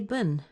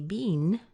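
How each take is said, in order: First: The vowel is a reduced schwa sound. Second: The vowel is a long ee sound. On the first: "like a schwa in the middle" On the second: "sounds a lot like a bean"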